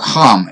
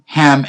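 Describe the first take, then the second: First: It begins with a harsh, throaty h. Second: It begins with a soft, breathy h.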